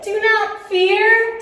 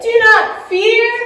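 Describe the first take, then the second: First: It is said at normal loudness. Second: It is said very loudly.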